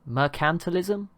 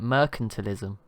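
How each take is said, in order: First: The stress is on the 'cant' syllable. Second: The stress is not on the 'cant' syllable. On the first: The speaker calls it right. "like emphasis on the cant" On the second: The speaker calls it wrong. "I was just calling it mercantilism"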